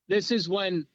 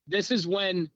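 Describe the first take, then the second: No difference in how they are said.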